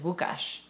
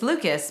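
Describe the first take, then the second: First: The name is pronounced the Polish way. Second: The name is pronounced the English way. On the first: "the way you say it, because he's Polish" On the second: "His name is Lucas"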